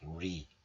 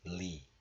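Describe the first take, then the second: First: It starts with an English R sound. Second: It starts with a sound like English L. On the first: The speaker calls it wrong. "But we don't pronounce like re" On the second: The speaker calls it right. "just li"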